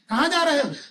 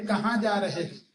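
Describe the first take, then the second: First: It is asked loudly and forcefully. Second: It is asked softly and affectionately.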